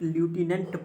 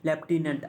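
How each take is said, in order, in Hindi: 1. पहला अक्षर 'loo' जैसा सुनाई देता है। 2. पहला अक्षर 'left' जैसा सुनाई देता है।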